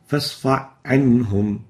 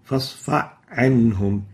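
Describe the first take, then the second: First: The h sound is merged into the next word. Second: The same.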